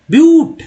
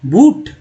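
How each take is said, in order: First: ब्यूट with a y-glide, "byoot"; loud, high-pitched "BYOOT" for ब्यूट; mock spelling reading of ब्यूट; wrong reading. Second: बूट with a plain long oo, "boot"; rounded oo straight after the b in बूट; wrong reading. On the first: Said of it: "बी यू टी क्या पढ़ेंगे?". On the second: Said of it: "बूट नहीं". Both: Shown as a demonstration.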